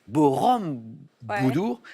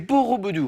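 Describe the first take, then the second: First: An extra m sound is heard inside the name. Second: No extra m sound is heard inside the name. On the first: The speaker calls it wrong. "Il y a un petit M" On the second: The speaker calls it right. "C'est Borobudur"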